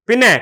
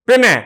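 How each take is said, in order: No difference in how they are said.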